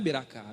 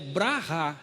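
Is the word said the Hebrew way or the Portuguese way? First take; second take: Portuguese; Hebrew. First: The word is said in a Portuguese-adapted form. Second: The word is said in its original Hebrew form. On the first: The speaker calls it wrong. "Beracá é um modo aportuguesado que se deu" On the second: The speaker calls it right. "a palavra ela, ela é brahá"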